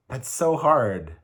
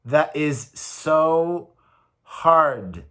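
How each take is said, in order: First: Said in the usual way. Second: Slow, heavy emphasis on so hard; slow emphatic. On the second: Real, not acted. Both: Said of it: "reminding myself".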